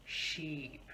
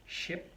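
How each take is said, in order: First: "sheep" with a long ee; long vowel. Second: "Ship" with a quick short i; short vowel. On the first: Teacher contrasts more similar words, long vowel. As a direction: stretch the ee in "sheep". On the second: Teacher contrasts more similar words, short vowel. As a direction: keep the i in "Ship" brief. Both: Shown as a demonstration. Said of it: "look at some other words as well".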